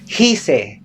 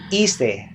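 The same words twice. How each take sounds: First: The word begins with an audible h sound. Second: The word begins with no h sound. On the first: The speaker calls it wrong. "We don't we do not say hice" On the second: The speaker calls it right. "It's silent H"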